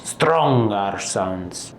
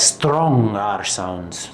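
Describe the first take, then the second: First: Drawn-out, poor attempt at Scottish R's; bad Scottish accent. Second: Said in the usual way. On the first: Shown as a demonstration. Teacher demonstrating Scottish R sounds, badly faked Scottish accent. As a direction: slowly try a Scottish accent on "Strong R sounds". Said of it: "That was bad". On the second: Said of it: "It has strong R sounds".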